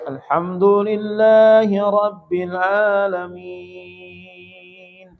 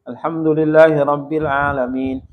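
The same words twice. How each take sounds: First: It is recited very slowly and drawn out. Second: It is recited clearly at a normal pace.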